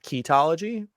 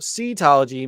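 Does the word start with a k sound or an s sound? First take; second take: k sound; s sound. First: The word begins with a k sound. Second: The word begins with an s sound. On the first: The speaker calls it wrong. "It's not ketology" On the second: The speaker calls it right. "he's got the correct pronunciation"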